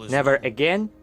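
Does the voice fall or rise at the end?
rise. The voice rises at the end.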